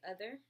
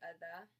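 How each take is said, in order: First: The final R sound is pronounced. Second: The final R sound is dropped. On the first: This is the American way. "we say other" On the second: This is the English way. "they say other"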